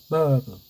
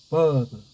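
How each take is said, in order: First: The r is dropped in an English style. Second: The same.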